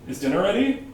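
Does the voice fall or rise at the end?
rise. The voice rises at the end of the question. "I'll start with the received English standard"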